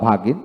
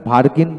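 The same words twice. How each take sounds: First: ভাগিন with a long open a and no r; r dropped. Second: ভার্গিন with the r sounded before g; r pronounced. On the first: Teacher gives second accepted form, ভাগিন without r. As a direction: drop the r completely in ভাগিন. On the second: Teacher gives first accepted form, ভার্গিন with r. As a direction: let the r be heard in ভার্গিন. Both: Shown as a demonstration. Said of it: "ভার্গিন বলা যায় বা ভাগিন".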